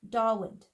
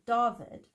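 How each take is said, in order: First: The middle consonant is a w sound. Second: The middle consonant is a v sound. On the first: The speaker is unaware of the local pronunciation. "English-speaking people who aren't aware of the Afrikaans nuances will say Dawood" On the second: It follows the local language's own pronunciation. "Afrikaans people will pronounce it David"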